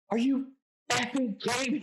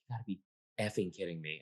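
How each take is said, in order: First: High, loud mock outburst; flipping out. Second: Low, muttered disbelief under the breath; a quiet girl grumbling to herself, half aloud; quiet grumble. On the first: Girl at the party stands up after the last score, flipping out. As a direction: imitate her jumping up and losing it. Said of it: "Like, flips out". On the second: Retold or imitated. Quiet girl at party grumbling over her lost squares, muttered.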